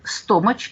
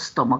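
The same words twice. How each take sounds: First: The middle consonant sounds like ch in church. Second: The middle consonant sounds like a k. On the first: The speaker calls it wrong. "all Russian actors pronounce stomach" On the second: The speaker calls it right. "a right pronunciation for"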